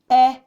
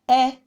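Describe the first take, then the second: No difference in how they are said.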